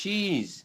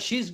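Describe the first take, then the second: First: It is said slowly and drawn out longer. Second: It is said quickly as one short syllable. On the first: The speaker calls it right. "বলতে হবে শি ইজ, একটু লম্বা করে" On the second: The speaker calls it wrong. "এটা তাড়াতাড়ি বলা যাবে না, শিজ বলা যাবে না"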